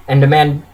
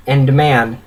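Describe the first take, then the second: No difference in how they are said.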